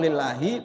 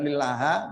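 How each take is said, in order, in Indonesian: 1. Katanya berakhir dengan vokal i. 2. Katanya berakhir dengan vokal a. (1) "li baca kasroh lillahi begitu" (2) "bukan lillaha"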